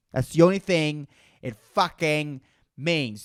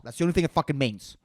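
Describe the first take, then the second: First: Slow, word by word; deliberate, spaced-out insistence; slow emphatic repeat. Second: Rattled off fast; rapid, matter-of-fact brush-off; quick dismissal. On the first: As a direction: spell it out with gaps between phrases. Slow emphatic repeat of previous line. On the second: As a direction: toss the whole line off in one rush. Quick first take, then slow repeat. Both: Real, not acted.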